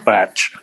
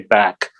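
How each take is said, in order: First: It ends in a tch sound. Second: It ends in a hard k sound. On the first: "or batch" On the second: "a lot of people in England ... they say back"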